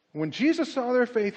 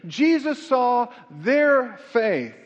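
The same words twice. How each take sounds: First: Said in the usual way. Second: "Jesus saw their faith" stretched out slowly, word by word; slow emphasis. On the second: Shown as a demonstration. Repeats the key phrase.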